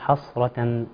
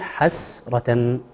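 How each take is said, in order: First: The first consonants are thick and emphatic. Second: The first consonants are thin and light. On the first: The speaker calls it wrong. "بعض الناس يقول حصرة ... أو يقوم بتفخيم الحاء" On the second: The speaker calls it right. "لكن الصحيح حسرة"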